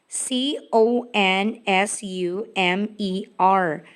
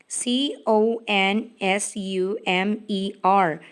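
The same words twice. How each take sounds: No difference in how they are said.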